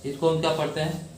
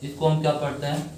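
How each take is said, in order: The two takes are said the same way.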